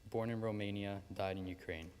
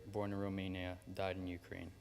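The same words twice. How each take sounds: The two takes are said the same way.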